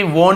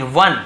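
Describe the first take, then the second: First: "वोन" with a closed long o, pitched up; teacher giving "वोन" as what not to say; wrong pronunciation. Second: "वन" with a short uh vowel; short uh in "वन", falling; right pronunciation. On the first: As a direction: show the mistaken long o in "वोन". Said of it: "वोन नहीं पढ़ेंगे". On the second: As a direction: correct to "वन", like English one. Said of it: "इसे भी वोन नहीं पढ़ेंगे". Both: Shown as a demonstration.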